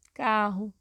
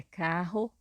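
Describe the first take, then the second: First: "Carro" with the final o said as U. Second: "carro" with the final o said as a full O; final O as written. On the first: Teacher giving a second example of everyday speech, "Carro" ending in U. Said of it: "acabamos colocando a letra U no lugar". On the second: Teacher showing how the word is written, "carro" ending in O. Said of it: "palavra terminada com a letra O". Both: Shown as a demonstration.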